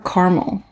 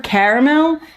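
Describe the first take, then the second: First: The word begins with a sound like 'car'. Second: The word begins with a sound like 'carrot'. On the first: "a car for caramel" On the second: "Put a carrot for caramel"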